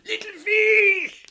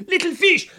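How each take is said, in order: First: Very high, slow stretched shout; fisherman's long drawn cry to the fish in the storm. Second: High, loud call with a laugh; yelling. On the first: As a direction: hurl the call long across the waves. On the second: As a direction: call out over the storm. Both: Acted. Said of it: "he yelled out".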